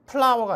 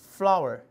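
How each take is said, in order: First: The first sound is a p-like puff with lips. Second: The first sound is a soft f with teeth. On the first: The speaker calls it wrong. "flower가 아니라" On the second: The speaker calls it right. "윗니빨이랑 아랫입술을 이용하시면 해결돼요"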